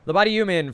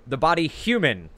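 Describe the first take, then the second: First: "human" said as "yuman", H dropped; Jersey "human" with no H sound, "yuman"; Jersey accent. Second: Said in the usual way. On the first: Real, not acted. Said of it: "there's my Jersey accent coming through". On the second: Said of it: "forget the H at the beginning".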